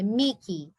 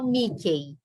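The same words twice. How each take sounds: First: The final vowel is an 'ee' sound. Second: The final vowel is an 'ay' sound. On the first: The speaker calls it right. "É Mickey" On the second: The speaker calls it wrong. "Não falo Mickey"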